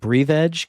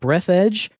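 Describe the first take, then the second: First: The first word has a long vowel, like breathe. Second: The first word has a short vowel, like breath. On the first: The speaker calls it right. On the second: The speaker calls it wrong.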